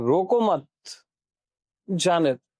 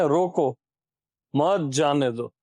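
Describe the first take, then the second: First: The pause comes right after 'mat'. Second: The pause comes right after 'roko'.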